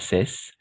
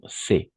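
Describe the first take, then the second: First: The word ends with a hissing s sound. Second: The word ends with an open vowel sound. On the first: The speaker calls it wrong. "pas cesse" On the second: The speaker calls it right. "sinon C, tout simplement"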